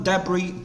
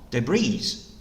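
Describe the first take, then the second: First: "debris" as DEB-ree, first syllable stressed; British pronunciation. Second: "debris" as de-BREE, last syllable stressed; short "de", then a long stressed BREE in "debris"; American stress on I. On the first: Teacher showing students British "debris", stressed on the first syllable. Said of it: "영국 발음은". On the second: Teacher showing students American "debris", stress on the final -BREE. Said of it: "I에 강세를 둡니다". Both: Shown as a demonstration.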